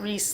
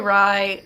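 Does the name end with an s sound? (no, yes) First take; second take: yes; no. First: The name ends with an s sound. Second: The name ends without an s sound. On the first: "It's not Reese like like the Welsh name" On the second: "I say Rye because I there's not an S"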